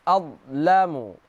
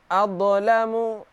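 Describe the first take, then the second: First: The consonant before 'lamu' flows without a bounce. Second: The consonant before 'lamu' has an echoing bounce. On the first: The speaker calls it right. "Tidak qalqalah" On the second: The speaker calls it wrong. "dengan cara uh, apa namanya? Dengan cara uh, qalqalah. Ini salah"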